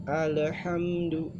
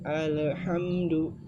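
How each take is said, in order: The two takes are said the same way.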